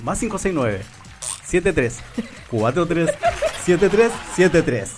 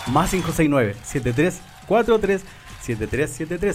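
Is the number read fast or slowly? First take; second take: slowly; fast. First: The number is read at a slower pace. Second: The number is read at a faster pace.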